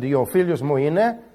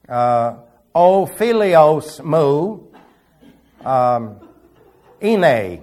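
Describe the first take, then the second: First: It uses the modern spoken Greek pronunciation. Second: It uses the old classroom Greek pronunciation. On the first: "If I said" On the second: "if you want to pronounce it in Bible school Greek"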